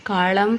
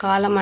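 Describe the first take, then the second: First: కాళం with curled-tongue ళ; retroflex L for l. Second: Said in the usual way. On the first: Shown as a demonstration. Teacher showing a swap, కాళం with retroflex L. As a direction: curl the tongue back in కాళం. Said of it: "అని పలుకుతారు". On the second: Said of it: "తారుమారు చేసి పలుకుతారు".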